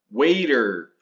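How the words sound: It is said with an American accent. "Essa pronúncia americana"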